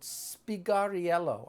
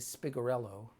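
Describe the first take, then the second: First: The name is said without an American pronunciation. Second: The name is said with an American pronunciation. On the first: "It's called Spigariello, I believe" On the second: "I think Americans say Spigarello"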